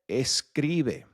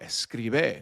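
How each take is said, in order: First: The stress falls on its usual syllable. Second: The stress is moved to another syllable. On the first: The speaker calls it right. "we're not putting an emphasis on any of the any of the letters" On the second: The speaker calls it wrong. "that doesn't really make sense when you when you pronounce it"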